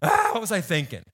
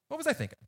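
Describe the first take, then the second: First: It is said in an exasperated tone. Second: It is said in a calm, plain tone.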